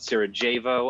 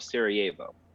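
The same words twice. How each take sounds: First: The j is said hard, like English j. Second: The j is said softly, like a y. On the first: The speaker calls it wrong. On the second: The speaker calls it right.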